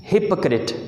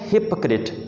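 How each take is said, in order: The two takes are said the same way.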